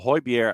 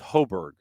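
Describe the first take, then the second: First: The name is said with its Danish sounds. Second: The name is said in simplified English sounds. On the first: The speaker calls it right. "the way the person themselves would pronounce it" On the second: The speaker calls it wrong. "That's lazy"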